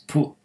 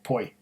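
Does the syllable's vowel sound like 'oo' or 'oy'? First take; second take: oo; oy. First: The syllable is said with an 'oo' vowel. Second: The syllable is said with an 'oy' vowel. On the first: The speaker calls it right. "but it's pu" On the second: The speaker calls it wrong. "when I see P O I, I think of poi"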